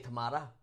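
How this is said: Tomato is said with a British accent. This is how the speaker's country says it. "we say tomato"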